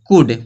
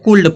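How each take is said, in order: First: The L sound is silent in the word. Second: The L sound is pronounced in the word. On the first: The speaker calls it right. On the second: The speaker calls it wrong.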